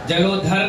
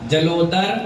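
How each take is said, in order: First: The consonant is an aspirated dh sound. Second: The consonant is a plain d sound. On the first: The speaker calls it wrong. "जलोधर नहीं है" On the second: The speaker calls it right. "दा है दा"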